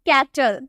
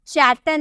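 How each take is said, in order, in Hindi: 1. शब्द की शुरुआत 'k' ध्वनि से होती है। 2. शब्द की शुरुआत 'ch' ध्वनि से होती है। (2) "चैटल नहीं"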